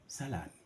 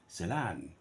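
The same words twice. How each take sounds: First: The stress is on the first syllable. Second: The stress is on the second syllable.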